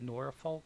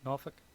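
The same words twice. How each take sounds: First: It is said with the common, widespread pronunciation. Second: It is said with the speaker's own Virginian pronunciation. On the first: This is how most people say it. "most people call it Norfolk" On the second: This is how the speaker personally says it. "I've always pronounced it Norf- Norfolk"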